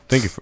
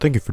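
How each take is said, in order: First: It is said in the speaker's ordinary voice. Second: It is said in a put-on radio announcer voice.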